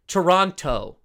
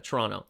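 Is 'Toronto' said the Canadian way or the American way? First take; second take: American; Canadian. First: The word is said the American way, with every sound spelled out. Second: The word is said the Canadian way, clipped and run together. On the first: This is how Americans say it. The speaker calls it wrong. "He goes Toronto. ... Americans say it that way" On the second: This is how locals in Canada say it. The speaker calls it right. "That's how we pronounce in Canada"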